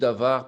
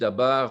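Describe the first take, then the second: First: The middle consonant is a V sound. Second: The middle consonant is a B sound. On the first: "parfois je dis davar" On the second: "parfois je dis dabar"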